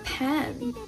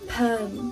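First: The vowel is a clear e before n. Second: The vowel is a Mandarin-like en sound. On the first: The speaker calls it right. "是a 和n 组成一起" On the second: The speaker calls it wrong. "直接会发成n"

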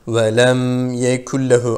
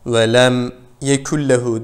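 First: The phrase flows smoothly without a break. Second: The phrase has a short break inside it. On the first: The speaker calls it right. "Hafif akacak" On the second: The speaker calls it wrong. "sekte yapmayalım. Yani şu şekilde de okumayalım"

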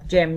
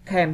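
First: The word begins with a ch sound. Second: The word begins with a hard k sound. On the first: The speaker calls it wrong. "không đọc là chem nha các bạn" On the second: The speaker calls it right. "Các bạn đọc là chemistry thì nó chính là âm K"

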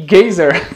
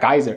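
First: The word is said in the character's nonstandard way. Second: The word is said in the standard English way. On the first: The speaker calls it wrong. "que ele fala, que tá errado a pronúncia de novo" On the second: The speaker calls it right. "seria geyser"

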